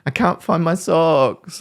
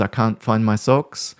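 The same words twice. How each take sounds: First: Put-on high, slow, whining child voice; whiny victim child. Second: Said in the usual way. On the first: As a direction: mimic a helpless kid whining, pitched high. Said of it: "This whinging, complaining". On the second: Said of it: "Like when my son says".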